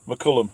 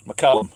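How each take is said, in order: First: McCullum said with an uh vowel in the middle, a slip; wrong first try. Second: McCallum said with a clear ah vowel, mac-CAL-um, falling; corrected name. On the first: Reading a viewer's name aloud, getting it wrong. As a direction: stumble into McCullum. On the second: Correcting a viewer's name, careful pronunciation. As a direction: fix it to McCallum. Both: Shown as a demonstration. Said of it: "I got it right first time".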